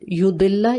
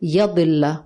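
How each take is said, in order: First: The first vowel is an 'u' sound. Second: The first vowel is an 'a' sound. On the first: Someone leads others astray. "या की पेश के साथ है" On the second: Someone goes astray himself. "या की जबर के साथ आता है"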